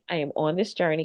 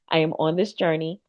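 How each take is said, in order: First: It is said at a quicker pace. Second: It is said slowly and deliberately.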